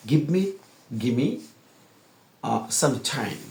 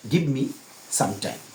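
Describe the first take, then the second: First: "time" with a hard aspirated t, like ঠ; native English pronunciation. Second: Said in the usual way. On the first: Shown as a demonstration. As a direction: push out the t of "time", native style. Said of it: "টি তো ঠর মতো ধাক্কা দিয়ে উচ্চারণ করবে". ("time"-এর টি ঠ-এর মতো ধাক্কা দিয়ে) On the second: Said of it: "তারা এভাবে বলবে না".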